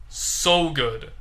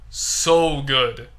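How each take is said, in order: Both takes have the same delivery.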